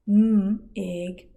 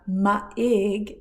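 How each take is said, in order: First: The first consonant is short with no vowel. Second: A vowel sound follows the first consonant. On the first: The speaker calls it right. "it's m ig" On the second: The speaker calls it wrong. "it's not ma ig"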